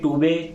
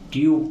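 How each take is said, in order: First: It is said as two syllables, too-bay. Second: It is said as one syllable, tyoob. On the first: The speaker calls it wrong. "टूबे नहीं" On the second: The speaker calls it right. "ट्यूब पढ़ना है"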